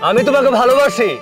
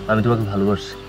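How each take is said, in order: First: It is said loudly so everyone can hear. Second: It is said quietly in a plain voice. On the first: The speaker calls it right. "জোরে জোরে বলবে, যেন সবাই সবকিছু শুনতে পায়।" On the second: The speaker calls it wrong. "এইভাবে না।"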